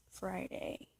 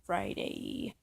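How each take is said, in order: First: Said in the usual way. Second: Friday dropped much lower, playful; mock deep Friday. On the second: Repeating the date to the camera, mock deep. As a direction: growl Friday low for fun.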